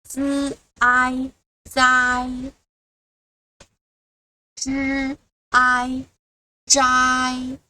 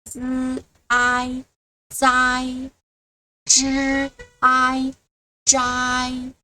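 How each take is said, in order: No difference in how they are said.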